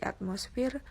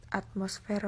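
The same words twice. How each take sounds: First: "atmosfer" said as "atmosfir"; "atmosfer" ending in -fir; non-standard pronunciation. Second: Said in the usual way. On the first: Shown as a demonstration. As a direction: say "atmosfer" with I in the last syllable. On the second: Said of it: "contoh kata baku dan kata".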